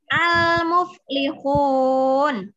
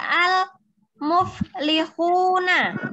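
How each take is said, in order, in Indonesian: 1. Kata itu berakhir dengan bunyi n. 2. Kata itu berakhir dengan vokal setelah n.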